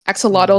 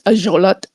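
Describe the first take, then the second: First: The word is said the usual English way. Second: The word is said the Nahuatl way.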